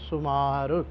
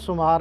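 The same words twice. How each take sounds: First: The word ends with a short u sound. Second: The word ends without a short u sound. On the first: The speaker calls it right. "ਔਂਕੜ ਲਾ ਕਰਕੇ ਉਚਾਰਨ ਕਰਨਾ ਹੈ" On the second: The speaker calls it wrong. "ਇਸ ਤਰ੍ਹਾਂ ਸਿੱਧਾ ਸੁਮਾਰ ਨਹੀਂ ਪੜ੍ਹ ਜਾਣਾ"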